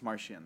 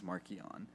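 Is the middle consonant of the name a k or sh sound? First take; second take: sh; k. First: The middle consonant is a sh sound. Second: The middle consonant is a k sound. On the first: This is how the audiobook narrator said the name. "But I use Martian" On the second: This is how the creators say the name. "The one that the authors use is Markian"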